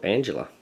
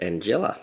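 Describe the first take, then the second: First: "Angela" said as AN-juh-luh; usual pronunciation. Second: "Angela" said as an-JELL-a; alternative pronunciation. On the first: Offering another way to say the mage's name, "Angela" pronounced AN-juh-luh. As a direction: stress the first syllable of "Angela", with a weak middle vowel. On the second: Reading out a mage's name, "Angela" pronounced an-JELL-a. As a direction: stress the middle syllable of "Angela", with an open "e". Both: Shown as a demonstration. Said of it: "how you want to pronounce it".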